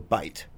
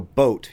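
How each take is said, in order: First: The vowel sounds close to an 'eye' sound. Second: The vowel is a plain 'oh' sound. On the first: "hard O is a hard I. ... you would just go bite" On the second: "Like if you go boat"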